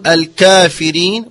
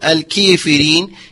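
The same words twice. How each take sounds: First: The vowel after the k is a pure a. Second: The vowel after the k is a pure i. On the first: "لا هي فتحة خالصة" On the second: "ولا هي كسرة خالصة"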